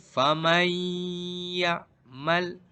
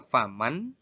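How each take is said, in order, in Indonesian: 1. Bunyi n menyatu, bersengau, dengan y setelahnya. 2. Bunyi n dibaca jelas dan terpisah. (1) "Tapi faman ya'mal idgham" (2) "tidak boleh dibaca faman"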